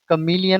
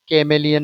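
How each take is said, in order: First: The first syllable sounds like 'kuh', then 'mee'. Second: The first syllable sounds like 'kay', then 'meh'. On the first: The speaker calls it right. "ये कमीलियन होता है" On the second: The speaker calls it wrong. "कैमेलियन नहीं होता है"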